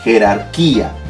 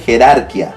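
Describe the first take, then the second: First: The stress is on the third syllable. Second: The stress is on the second syllable. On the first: The speaker calls it right. "obliga a que pronunciemos adecuadamente" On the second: The speaker calls it wrong. "Si lo dejo así, dice"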